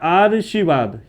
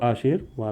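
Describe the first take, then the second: First: The r sound comes before the sh sound. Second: The r sound comes before the v sound. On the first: The speaker calls it wrong. "ये लिखा है आर्शीवाद, ये भी गलत है" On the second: The speaker calls it right. "तो आशीर्वाद बन गया, ये सही है"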